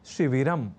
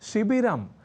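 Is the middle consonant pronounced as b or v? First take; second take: v; b. First: The middle consonant is pronounced as v. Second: The middle consonant is pronounced as b. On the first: The speaker calls it right. "व" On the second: The speaker calls it wrong. "ब"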